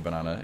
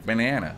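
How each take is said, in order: First: It is said with a British English accent. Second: It is said with a stretched American accent.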